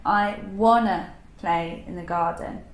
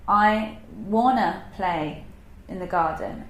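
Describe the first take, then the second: Both takes have the same delivery.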